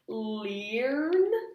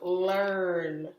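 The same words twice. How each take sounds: First: The vowel is a long 'ee' sound. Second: The vowel is an 'er' sound. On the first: The speaker calls it wrong. "this looks like a vowel pair, E A, so it looks like it should say" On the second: The speaker calls it right. "sometimes E and A kind of chunk into er"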